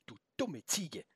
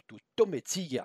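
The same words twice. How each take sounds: First: Soft, muted insult to oneself; inner thought. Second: Slow, pitched-up insult; exasperated insult. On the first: Felix silently insults the goat, inner thought. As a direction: think it aloud under your voice. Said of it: "Wieder dachte er". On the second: Felix almost insults the goat, exasperated. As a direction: stretch out the insult. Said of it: "angefügt". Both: A narrator's reading.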